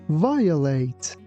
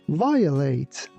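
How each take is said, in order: Both takes have the same delivery.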